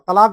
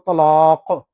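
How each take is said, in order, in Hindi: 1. इसमें सादा t है और अंत में सादा k है। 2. इसमें भारी t है और अंत में गूँजता हुआ q है। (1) "हम अ, तलाक बोलते हैं" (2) "मैं ता भी पुर पढ़ूँगा और जो है ना क़ाफ़ में क़लक़ला भी होगा"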